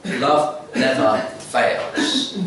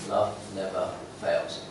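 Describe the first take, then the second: First: "Love never fails" drawn out very slowly, "Love" leaning up; slow emphatic verse. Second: "Love never fails" repeated lower and softer; soft echo. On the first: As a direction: savour every word of "Love never fails". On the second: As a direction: let "Love never fails" settle quietly. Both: Shown as a demonstration. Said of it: "repeated key verse".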